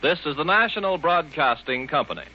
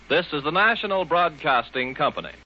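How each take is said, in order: Both takes have the same delivery.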